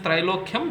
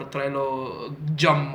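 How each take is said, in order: First: The ending is a clear 'kyam' sound. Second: The ending is not a clear 'kyam' sound. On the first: The speaker calls it right. "that's how you're supposed to pronounce it" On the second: The speaker calls it wrong. "or whatever"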